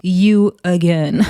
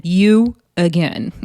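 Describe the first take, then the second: First: Slow drawn-out You again rising at the end; unimpressed. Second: Slow You again falling flat at the end; deadpan. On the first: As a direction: drawl You again slowly with a questioning rise. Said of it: "Big Lex is like". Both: Retold or imitated.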